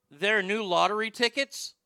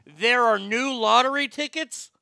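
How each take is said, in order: First: Imitated disbelief, pitched higher and louder; astonished question. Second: Slow, loud, high-pitched imitated disbelief; emphatic astonishment. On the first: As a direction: ask it like it's news to you. Acted mumbler's clueless astonished question, punchline. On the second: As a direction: hammer each word in amazed question. Punchline repeated with full emphasis.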